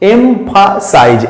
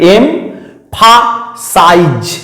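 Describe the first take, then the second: First: The word is said smoothly in one flow. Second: The word is broken into separate syllables.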